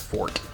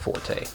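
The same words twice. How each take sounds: First: The word is said as one syllable, like fort. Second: The word is said as two syllables, for-tay. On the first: The speaker calls it right. "Fort versus forte" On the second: The speaker calls it wrong. "not forte"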